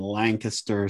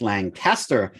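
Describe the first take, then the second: First: Lancaster as LANK-uh-ster, said slowly; local pronunciation. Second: Lancaster as LAN-CAST-er, said slowly; outsiders' pronunciation. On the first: Co-host recaps the lesson, slow local pronunciation. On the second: Co-host recaps the lesson, slow outsiders' pronunciation. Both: Shown as a demonstration. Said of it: "Thanks for dropping that".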